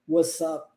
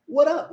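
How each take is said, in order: First: An S sound links the two words. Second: An R-like flap links the two words. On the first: "a variação do S com som de S juntando com o up" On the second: "Existe a omissão do S, aí o R, o T é transformado em R"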